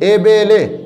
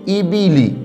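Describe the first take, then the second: First: The vowels are an ay sound instead. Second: The vowels are a clear long ee sound. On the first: The speaker calls it wrong. "अब ये बहुत बड़ी गलती है, ये मजहूल पढ़ा जा रहा है।" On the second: The speaker calls it right. "ये है पढ़ने का तरीका।"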